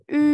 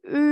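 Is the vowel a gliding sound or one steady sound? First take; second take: steady; steady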